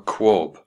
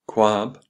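First: The vowel sounds like the one in swab. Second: The vowel sounds like the one in jab. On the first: "to rhyme with swab" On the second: "to rhyme with jab"

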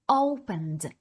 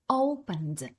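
No difference in how they are said.

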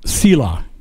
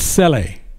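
First: The word is said the widely used way. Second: The word is said a less usual way. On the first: The speaker calls it wrong. "most people pronounce it Selah" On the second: The speaker calls it right. "but it's Sele"

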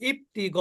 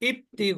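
Both takes have the same delivery.

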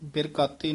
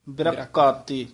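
First: The word is said loosely, without tightening. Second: The word is said tightly, with a held consonant. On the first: The speaker calls it wrong. "ਨਹੀਂ" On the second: The speaker calls it right. "ਥੋੜਾ ਜਿਹਾ ਕਸ ਕੇ ਬੋਲਣਾ"

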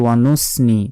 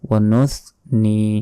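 First: The middle consonant is a plain s sound. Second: The middle consonant is a lisped th sound. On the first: The speaker calls it wrong. "এখন যদি বলি ওয়ানুসনি তাহলে কিন্তু ভুল হয়ে গেল" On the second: The speaker calls it right. "সা আসলে যেভাবে বের করতেই হবে"

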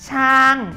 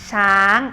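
First: The tone falls from high to low. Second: The tone is high and rising. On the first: "ช้างเป็นเสียงโท" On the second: "ช้างเป็นเสียงตรี"

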